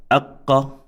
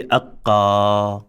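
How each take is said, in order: First: "aqqa" with a held double q and a short final a; short vowel ending. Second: "aqqa" with the final a held long; wrongly extended vowel. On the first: Teacher modelling no extension, "aqqa" ending short. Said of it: "it is not extended". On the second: Teacher showing the mistake, "aqqa" with a long last vowel. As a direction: draw out the end of "aqqa". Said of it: "we cannot say aqqa". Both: Shown as a demonstration.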